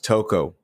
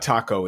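First: The word sounds like 'toco', with an 'oh' vowel. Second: The word sounds like 'taco', with an 'ah' vowel. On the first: The speaker calls it right. "It's toco" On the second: The speaker calls it wrong. "it's not taco"

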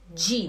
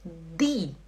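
First: The consonant is a softened 'dj' sound. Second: The consonant is a plain, hard 'd'. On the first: The speaker calls it wrong. "e não di" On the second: The speaker calls it right. "Eu tive que aprender a falar o di"

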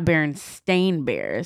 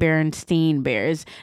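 First: The name's last syllable sounds like 'stain'. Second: The name's last syllable sounds like 'steen'. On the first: This is how the name is actually spelled today. "it's Berenstain Bears, like, with an A" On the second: This is how people remember the name. "spelt with, like, an E"

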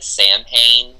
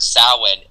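First: The name is pronounced the way it is spelled. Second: The name sounds quite unlike its spelling. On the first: This is a pronunciation learned only from reading. The speaker calls it wrong. "for somebody who learned literally just from like reading books, I said Samhain for just years" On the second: This is the pronunciation heard from native speakers. The speaker calls it right. "not even close to how I had pronounced it"

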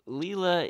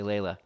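First: The first vowel sounds like 'ee'. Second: The first vowel sounds like 'ay'. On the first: The speaker calls it right. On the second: The speaker calls it wrong.

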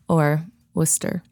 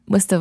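First: It is said with a non-local, general accent. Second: It is said with a Massachusetts local accent.

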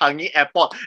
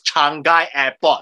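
First: Changi is said the Singaporean way. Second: Changi is said the foreign way. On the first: This is how locals name the airport. The speaker calls it right. "They mispronounced Changi Airport" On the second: This is how the show named the airport. The speaker calls it wrong. "as Changi Airport"

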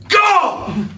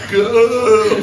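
First: It is said forcefully, as an exclamation. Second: It is said flatly, without force.

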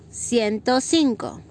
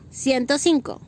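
First: It is said slowly. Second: It is said fast.

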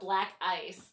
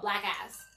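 First: The name is said in a plain accent. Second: The name is said in a Southern US accent.

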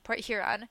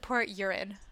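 First: Huron begins with an audible h sound. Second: Huron begins without any h sound. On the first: "Huron, like, Lake Huron" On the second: "everyone there pronounces it Port Urin. And it's, like, just their accent"

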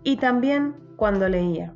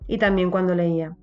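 First: It is read even more slowly. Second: It is read at a normal, quicker pace.

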